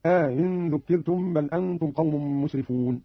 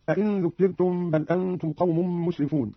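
First: Slow reading, aa-in for "أئن" with no hard second stop; eased hamza, inserted alif. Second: Said in the usual way. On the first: Shown as a demonstration. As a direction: stretch the first vowel of "أئن", easing the second hamza. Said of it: "بتسهيل الهمزة الثانية". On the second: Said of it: "قرأ قالون بتسهيل الهمزة الثانية".

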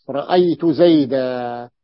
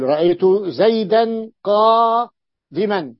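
First: زيدا ends on a long a, slow and deliberate; pausal alif ending. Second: زيدا said zaydan running into قادما, slow; connected nunation. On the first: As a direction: say زيدا with a held final alif, no nunation. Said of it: "فيوقف عليه بالألف". (زيدا بألف ممدودة في الوقف) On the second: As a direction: join زيدا to قادما with a clear nun. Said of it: "هذا بالوصل". (زيدا بالتنوين في الوصل: زيدًا قادمًا) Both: Shown as a demonstration.

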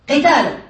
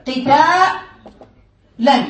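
First: Said in the usual way. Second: قتالا stretched extremely slowly, every letter held; slow spelled-out demo. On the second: Shown as a demonstration. Teacher showing students the letters of the masdar, drawn out. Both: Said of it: "انتبه معي".

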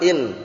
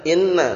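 First: "In" with a single final n; "In" ending on a plain n; lightened form. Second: "inna" with a doubled n; "inna" in full, n doubled; heavy form. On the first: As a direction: drop the doubling and final a: "In". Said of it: "Nanti kalau sudah diperingan". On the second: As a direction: hold the nn in "inna" before the final a. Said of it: "dari yang berat, bacanya". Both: Shown as a demonstration.

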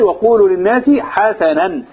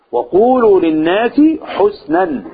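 First: حسنا read ḥasanan, two open a vowels; slowly, حسنا as ḥasanan; Hamza and al-Kisai reading. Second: حسنا read ḥusnan, slow and drawn out; slowly, حسنا as ḥusnan; reading husnan. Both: Shown as a demonstration. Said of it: "وفي قراءة حمزة والكسائي".

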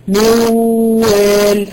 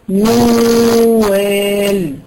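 First: موال drawn out loud, no ghunna; imitating a wrong reading. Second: موال with a long nasal hold on the m; correct ghunna reading. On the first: Teacher showing a student's mistake, wrong. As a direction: stretch موال without nasal hold. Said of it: "هذا خطأ". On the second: Shown as a demonstration. Teacher showing the correct reading, with ghunna. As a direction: hum the ghunna in موال two beats. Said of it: "لابد من إظهار الغنة".

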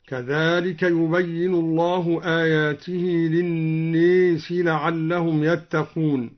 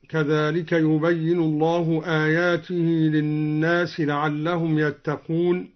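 First: للناس with long a tilted to "ee", "linnees"; imala on الناس. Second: Said in the usual way. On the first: Shown as a demonstration. Teacher showing al-Duri's imala, للناس as "linnees". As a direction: bend the alif of للناس towards ya. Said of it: "قرأ الدوري بإمالة الناس هكذا". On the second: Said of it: "قرأ الدوري بإمالة الناس".

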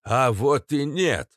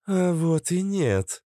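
First: Put-on slow, creaking old-man voice, burred; creaky. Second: High, slow female contradiction; lightly voiced Cobra. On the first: Katz contradicts the squad, creaky old voice. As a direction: creak it out, drawn and gloating. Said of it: "проскрипел папаша Кац". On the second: Cobra contradicts Natasha, slow high female voice. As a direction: counter it slowly in a raised register. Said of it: "сказала Кобра". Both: A narrator's reading.

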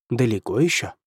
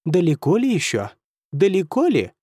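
First: Said in the usual way. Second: Higher teasing imitation of the question; mocking mimicry. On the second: A narrator's reading. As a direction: parrot his words back, mocking. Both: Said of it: "передразнил его Кервиси".

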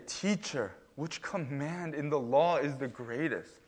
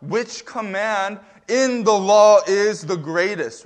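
First: Softer, mocking question with a sneer; sarcastic. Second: Louder, slow, dead-serious question; pointed question. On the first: Pharisee mocking Jesus as a fake rabbi, sarcastic. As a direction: ask it as a snide jab at the teacher. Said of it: "there is some sarcasm and wit in how these Pharisees talk to Jesus". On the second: Retold or imitated. Expert in the law testing Jesus, pointed and earnest. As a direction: lean on each word to pin him down. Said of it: "this is where the sarcasm is removed, and the question that we find so pointedly comes".

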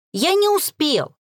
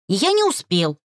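First: «не» hit high and slow; stress on не. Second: Said in the usual way. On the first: Acted. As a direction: lean hard on «не», drawn out. Repeats louder, slower.

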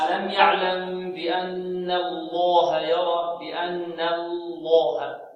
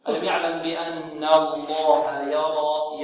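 First: Slow chanted error, الله with an uneven light-then-heavy L; student's faulty recitation. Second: Measured tajweed chant, both Ls of الله equally thick; correct verse recitation. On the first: Retold or imitated. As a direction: chant بأن الله very slowly with the first lam wrongly thinned. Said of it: "بعض الطلاب يقول". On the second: Shown as a demonstration. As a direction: slowly chant بأن الله with light noon and fully heavy lam. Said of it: "إذن هكذا".

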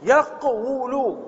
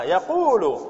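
First: "يقول" very drawn out as yaq-wu-lu; underlying form. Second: "يقول" as ya-qoo-lu with a long u; form after vowel shift. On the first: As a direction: model "يقول" slowly with a consonantal waw, yaq-WU-lu. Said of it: "هكذا مثلها". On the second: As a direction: slowly draw out the u in "يقول", ya-QUU-lu. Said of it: "فماذا نقول؟". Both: Shown as a demonstration.

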